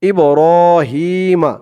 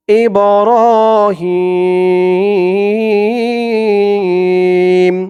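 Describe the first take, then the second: First: ইব্রাহিমা, shorter stretch, final vowel sounded; one-alif madd. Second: ইব্রাহিম slowly drawn out, ending on a hummed m; three-alif madd at stop. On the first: Teacher shows reading on without pausing, moderate stretch and open "ma". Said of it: "এক আলিফ টানই হবে". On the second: Teacher shows learners how to stop, long-held chanted ending. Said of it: "আপনারা থেমেই পড়বেন". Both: Shown as a demonstration.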